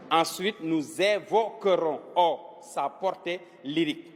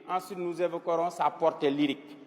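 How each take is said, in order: First: Drawn-out "nous évoquerons", syllable by syllable; slow dictation. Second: Said in the usual way. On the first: Shown as a demonstration. Teacher repeating the sentence for pupils to write, slow dictation. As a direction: dictate slowly, separating each chunk.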